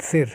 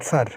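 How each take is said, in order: First: "sir" with a short i, as in Sindh; "sir", i rather than a; Sindh pronunciation. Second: "sar" with an a vowel, as in Punjab; "sar", a rather than i; Punjab pronunciation. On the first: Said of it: "In Sindh, they call it sir". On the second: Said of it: "But in Punjab, they tend to call it sar". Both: Shown as a demonstration.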